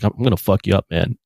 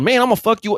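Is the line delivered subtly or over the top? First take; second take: subtly; over the top. First: The line is delivered subtly and quietly. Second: The line is delivered in an exaggerated way.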